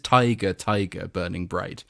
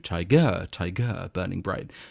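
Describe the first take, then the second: First: Tiger is stressed on its first syllable. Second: Tiger is stressed on its second syllable. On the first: This is the trochaic rhythm. "trochaic is the opposite... So William Blake" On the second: This is the iambic rhythm. "as opposed to"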